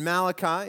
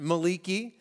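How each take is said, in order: First: The name is given its usual English pronunciation. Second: The name is given a Hebrew-style pronunciation.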